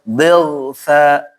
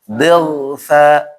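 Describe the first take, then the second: The two takes are said the same way.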